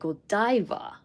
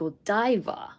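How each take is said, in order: First: It is said with an English pronunciation. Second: The same.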